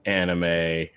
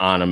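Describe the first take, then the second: First: It is said with an English-style pronunciation. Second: It is said with a Japanese-style pronunciation. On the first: The speaker calls it wrong. "I've been saying it incorrectly my whole life" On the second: The speaker calls it right. "the Japanese phonetic pronunciation"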